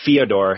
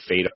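First: The name begins with a gliding 'fyo' sound. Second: The name begins with a plain 'fed' sound. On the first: The speaker calls it right. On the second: The speaker calls it wrong.

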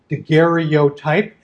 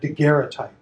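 First: Every syllable is pronounced fully and separately. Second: A couple of syllables are squished together. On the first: "as it's often spelled out and spelled out phonetically" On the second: "which sort of squishes a syllable together, a couple of syllables together"

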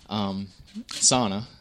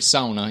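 First: Sauna is said with an English pronunciation. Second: Sauna is said with a Finnish pronunciation. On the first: The speaker calls it wrong. "if you say it, sauna, most people understand what you're saying" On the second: The speaker calls it right. "if you do say it properly and say sauna"

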